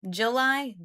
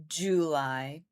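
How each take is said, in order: First: JULY said higher, as juh-LIE; falling juh-LIE for JULY; reduced first vowel. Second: JULY said low, as JOO-lie; lower, rising JOO-lie for JULY; full first vowel. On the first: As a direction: let JULY open on a short "juh". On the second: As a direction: open JULY on a long, rounded "joo". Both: Shown as a demonstration. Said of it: "Can, do you hear it?".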